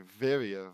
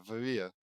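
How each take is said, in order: First: Varia as "VAIR-ee-uh"; stress on first syllable. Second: Varia as "vuh-REE-uh"; short first vowel, "vuh-REE-uh" for Varia; stress on second syllable. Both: Real, not acted. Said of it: "I'll say Varia".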